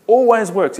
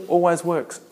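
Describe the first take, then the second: First: Always punched higher and louder; stress on Always. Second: Said in the usual way. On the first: Shown as a demonstration. Preacher drives the point home to congregation, with emphatic stress. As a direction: hit the word Always hard and high, falling on works. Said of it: "repeated after plain take". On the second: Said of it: "repeated louder right after".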